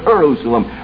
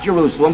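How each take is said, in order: First: The word begins with an 'Ur' sound. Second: The word begins with the usual 'Je' sound. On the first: The name means city of peace. The speaker calls it right. "but Jerusalem. Ur meaning city" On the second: The familiar name of the city. The speaker calls it wrong. "Not Jerusalem"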